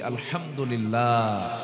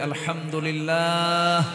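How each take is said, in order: First: It is said at normal volume. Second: It is said loudly.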